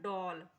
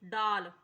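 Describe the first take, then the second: First: The vowel is a rounded 'aw' sound. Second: The vowel is an open 'aa' sound. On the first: This is how the word is actually spoken. "लेकिन हम इसे जब बोलते हैं तो किस प्रकार बोलते हैं?" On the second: This is how the word is written. "यहाँ पे लिखने को लिखा है ड ल"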